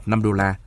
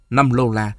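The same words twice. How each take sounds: First: Said in the usual way. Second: "lô la" with an L opening the first syllable; village pronunciation. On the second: A narrator's reading. Narrator quotes village old women saying "lô la" for dollars, village pronunciation. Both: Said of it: "theo cách nói của những bà già quê tôi".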